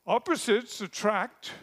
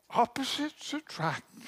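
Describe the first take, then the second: First: Said in the usual way. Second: Gasped, high, starry-eyed gushing; mock gushing wedding guest. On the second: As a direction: sigh out opposites attract like a dazzled guest.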